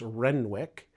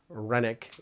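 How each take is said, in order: First: The name is read as it is spelled. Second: The name is said in its reduced local form. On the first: This is how the spelling suggests it sounds. The speaker calls it wrong. "It looks like it's Renwick" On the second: This is how the family and locals actually say it. The speaker calls it right. "Renwick is the way that you pronounce it"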